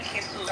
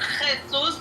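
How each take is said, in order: First: The first sound is soft and lightly breathed. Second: The first sound is harsh and strongly rasped. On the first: This is how it is said in Latin America. "we say it uh, softer" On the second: This is how it is said in Spain. "Not Jesus"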